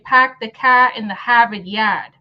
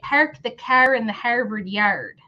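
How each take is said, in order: First: The R sounds are dropped after vowels. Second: The R sounds are pronounced strongly and hard. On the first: The speaker is from New England. "if I was from New England" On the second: The speaker is from Michigan. "when you're from Michigan ... We lean into our R sound like really hard"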